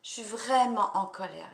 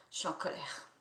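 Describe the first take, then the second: First: Raised voice, pressing on vraiment; venting anger, louder now; anger let out. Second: Breathy whisper, held in; anger kept under the breath; hushed, suppressed fury. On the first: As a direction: let the anger come out loud. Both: Shown as a demonstration. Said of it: "on peut y aller".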